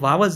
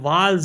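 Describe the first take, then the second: First: A 'w' sound is heard in the middle. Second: No 'w' sound is heard in the middle. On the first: The speaker calls it wrong. "ये वावल्स नहीं है" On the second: The speaker calls it right. "ये वाल्स है"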